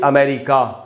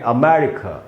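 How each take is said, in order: First: The final vowel is a long, full 'aa'. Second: The final vowel is a short, reduced 'uh'. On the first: The speaker calls it wrong. "न कि अमेरिका" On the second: The speaker calls it right. "क के बाद आधा अ है"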